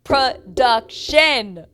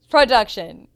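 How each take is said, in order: First: Loud, each syllable stretched way out; big, slow, scolding-style emphasis on "Production"; drawn-out call-out. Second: Loud, quick repeat in one go; short, forceful address to the producers; emphatic call-out. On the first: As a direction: hammer it syllable by syllable, very slowly. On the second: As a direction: say it loudly as a single punchy word. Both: Retold or imitated. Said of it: "I said".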